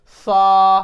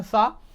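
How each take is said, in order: First: सा stretched slow and loud; long drawn sa. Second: Said in the usual way. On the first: Shown as a demonstration. Teacher contrasting a long vowel with a normal one, drawn out. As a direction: hold सा like a sung note. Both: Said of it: "अगर normally हम बोल देते हैं सा".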